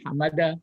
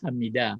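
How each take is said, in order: First: The vowel after the m is a. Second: The vowel after the m is i. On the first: The speaker calls it wrong. "dibaca bukan hamada" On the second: The speaker calls it right. "tapi ada hamida setimbangan dengan fa'ila"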